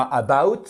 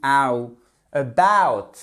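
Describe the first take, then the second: First: About with stress misplaced, weak glide; wrong French-style about. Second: Ow, about with loud stressed glide; ow diphthong. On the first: Teacher showing the mistake, French-style about. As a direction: say about evenly, like a French learner. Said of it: "c'est pas about". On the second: Teacher showing the phonetics, full ow in about. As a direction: punch the second syllable of about, wide ow. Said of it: "c'est comme ceci". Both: Shown as a demonstration.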